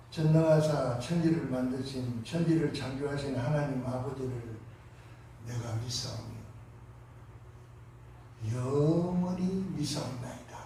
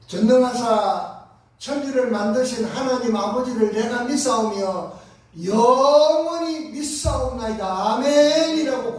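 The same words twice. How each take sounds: First: Hushed, murmured creed; quiet confession. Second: Bursting confession. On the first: Preacher retelling his hospital-bed creed, hushed. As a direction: recite it softly to yourself. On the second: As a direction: let the creed burst out of you. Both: Retold or imitated. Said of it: "고백이 터져 나오는 거예요".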